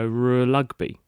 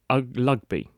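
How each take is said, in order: First: An R is followed by an L sound. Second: The word starts with no R sound. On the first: "he couldn't run the two together because he would go r lugby" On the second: "he would say ugby"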